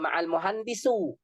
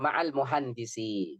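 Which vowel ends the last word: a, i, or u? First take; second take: u; i. First: The last word ends in a u vowel. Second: The last word ends in an i vowel. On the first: The speaker calls it wrong. "nggak boleh baca juga ma'al muhandisu" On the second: The speaker calls it right. "Yang benar ma'al muhandisi"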